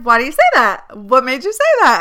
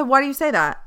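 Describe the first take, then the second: First: Louder, pressing, defensive questions; insecure and defensive. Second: Said in the usual way. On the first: Retold or imitated. Retelling how she grilled the nurse, louder and defensive. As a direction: push back at the nurse, feeling insecure. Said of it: "I started getting like". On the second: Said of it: "I said".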